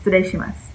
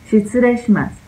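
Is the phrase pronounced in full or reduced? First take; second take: reduced; full. First: The syllables are squeezed together and reduced. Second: Every syllable is pronounced clearly and fully. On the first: "Suena más como streshimas" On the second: "no suena Shitsurei shimasu"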